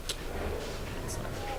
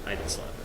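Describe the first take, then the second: First: Slow whispered aside; a slow, hushed whisper. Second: Said in the usual way. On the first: Real, not acted. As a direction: breathe it out slowly as a hushed denial. Denying the slap joke.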